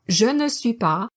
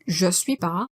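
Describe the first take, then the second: First: All four syllables are said in full. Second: The ne is dropped, leaving three syllables. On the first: "the original four" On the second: "turns into je suis pas"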